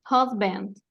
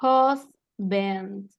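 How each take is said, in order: First: Husband as one word, HOS-bend; joined-up pronunciation demo. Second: Husband split slowly into HOS, bend; syllable-by-syllable pronunciation. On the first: Teacher repeating for a student, husband said whole. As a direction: run both syllables of husband together. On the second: Teacher showing how it is pronounced, husband in separate syllables. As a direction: break husband in two with a gap. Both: Shown as a demonstration. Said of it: "se va a pronunciar".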